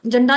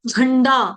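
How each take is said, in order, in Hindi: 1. पहला व्यंजन सादा, अल्पप्राण j है। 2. पहला व्यंजन ज़ोर वाला, महाप्राण jh है।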